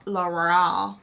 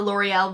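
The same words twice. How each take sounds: First: L'Oreal slurred into fewer syllables; L'Oreal mangled by accident; garbled brand name. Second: Said in the usual way. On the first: Real, not acted. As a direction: stumble over L'Oreal, losing the middle.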